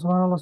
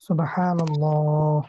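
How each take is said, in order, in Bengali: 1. শব্দটি দ্রুত উচ্চারণ করা হচ্ছে। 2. শব্দটি ধীরে ও সুন্দর করে বলা হচ্ছে। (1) "খুব দ্রুত পড়ি" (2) "সুন্দর করে ... এইভাবে বলা"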